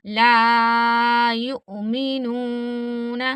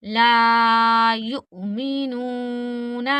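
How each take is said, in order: First: Very slow, the ऊ in युमिनून stretched long; ला युमिनून with a long drawn ऊ; madd demo. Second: Slow, a small catch before मि in युमिनून; ला युमिनून with a clipped hamza and a long ऊ; hamza stop demo. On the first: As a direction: pull out the long vowel of युमिनून. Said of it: "वाव मद्दा होता है, हमने नून को खींचना है". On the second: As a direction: give युमिनून a glottal jolt, then stretch. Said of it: "हमजा साकिन तो हमने झटका दे के पढ़ना है". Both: Shown as a demonstration.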